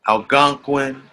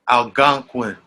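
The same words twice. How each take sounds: No difference in how they are said.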